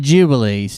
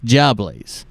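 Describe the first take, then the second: First: The word has three syllables, ju-bi-lees. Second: The word has two syllables, jub-blies. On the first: The speaker calls it wrong. "Not jubilees" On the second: The speaker calls it right. "That word is actually jubbly"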